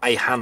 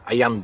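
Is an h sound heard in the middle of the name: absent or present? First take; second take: present; absent. First: The name is said with an h sound. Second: The name is said without an h sound. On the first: This is the name's real form. "Ayhan aslında" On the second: This is how Italians say the name. "Ayan der İtalyanlar. H'yi söyleyemezler"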